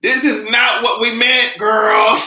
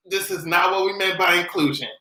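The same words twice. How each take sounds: First: High, loud, slow protest; high outraged slow protest; exasperated shout. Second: Said in the usual way. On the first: Retold or imitated. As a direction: cry it out in disbelief. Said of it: "I was like". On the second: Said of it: "calmer repeat".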